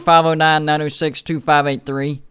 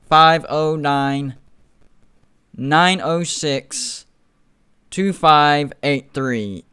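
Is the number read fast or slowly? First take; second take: fast; slowly. First: The number is read at a fast pace. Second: The number is read at a slower pace. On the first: "I said that a little fast right there" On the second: "I'll say that slower"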